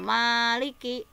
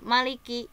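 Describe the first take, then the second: First: The first vowel is held long. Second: The first vowel is kept short.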